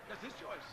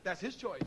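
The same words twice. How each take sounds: First: Softer, letting the words sink in; quiet repeat. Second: Said in the usual way. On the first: Real, not acted. Repeating his verdict to the minister, quiet. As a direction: drop the voice for the repeat.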